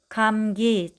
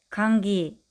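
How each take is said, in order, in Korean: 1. 첫 음절의 받침은 그대로 따로 구별되어 소리 나요. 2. 첫 음절의 받침은 다음 음절과 이어져 소리 나요.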